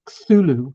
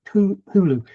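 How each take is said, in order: First: The t and h merge into one th sound. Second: The t and h are said as separate sounds. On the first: This is how most people assume it is said. The speaker calls it wrong. "So not Cthulhu" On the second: This is how the author probably intended it. The speaker calls it right. "the C T is clearly a separate sound"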